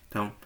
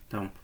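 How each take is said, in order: Both takes have the same delivery.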